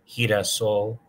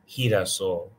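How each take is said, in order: Both takes have the same delivery.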